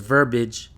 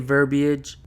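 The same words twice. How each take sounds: First: The word is pronounced differently from its spelling. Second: The word is pronounced the way it is spelled. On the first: The speaker calls it wrong. "which is the wrong pronunciation" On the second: The speaker calls it right. "the way it's spelled and pronounced"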